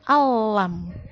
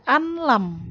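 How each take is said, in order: First: The n sound merges into a doubled l. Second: The n sound is pronounced before the l. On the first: The speaker calls it right. "tapi alam. Masuk ke huruf lam" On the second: The speaker calls it wrong. "Nggak boleh dibaca anlam"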